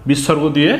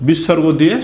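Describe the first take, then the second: No difference in how they are said.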